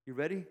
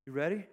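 Both takes have the same delivery.

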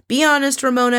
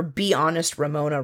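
First: Higher, louder mock rant; imitating a housewife lecturing her castmate. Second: Said in the usual way. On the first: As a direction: ham up her nagging "Be honest, Ramona". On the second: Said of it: "Jill going on her "Be honest, Ramona" rant".

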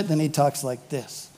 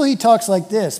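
First: Low, soft undertone; behind-their-backs voice. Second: Open, ordinary-volume voice; public way of talking. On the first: How he talks when those people aren't there, hushed and low. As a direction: drop it low, as if they've gone. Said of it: "when those people aren't there". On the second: How he talks with some people, open public manner. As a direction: say it up front, for company. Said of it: "with some people". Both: Acted.

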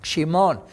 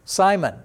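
First: Shimon as shee-MON; sh to start, weight on the MON of Shimon; Hebrew pronunciation. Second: Simon the English way, SAI-mən; English pronunciation. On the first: Teacher repeating the name for the class, Hebrew pronunciation. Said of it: "That's how it would be said in Hebrew". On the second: Teacher showing how the Bible name sounds in English, English pronunciation. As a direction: say Simon with stress on the first syllable. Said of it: "how you would say it in English". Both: Shown as a demonstration.

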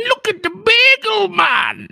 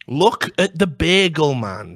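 First: Slow, very high falsetto squeal; mocking gawker. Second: Said in the usual way. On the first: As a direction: jeer like a delighted gawker, drawn out. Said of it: "looking at this guy and going".

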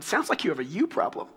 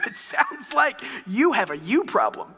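First: Said in the usual way. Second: Slower, "you" pressed hard and lifted; stress on you. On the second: Retold or imitated. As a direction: punch the second "you" like a verdict. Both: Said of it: "repeating that phrase again and again".

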